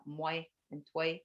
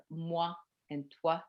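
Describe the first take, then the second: First: Put-on "moi and toi" said as mwe and twe, the old court way; Quebec moi, toi. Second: "moi and toi" said as mwa and twa, the Paris way; France French moi, toi. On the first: Guide showing tourists the Quebecois sounds of "moi and toi". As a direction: bend the ending of "moi" and "toi" toward "weh". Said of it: "that's actually court language". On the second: Guide showing tourists the standard French sounds of "moi and toi". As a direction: give "moi" and "toi" a clean open "wa" ending. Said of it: "you hear more about moi and toi". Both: Shown as a demonstration.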